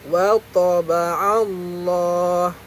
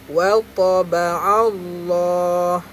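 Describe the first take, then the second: No difference in how they are said.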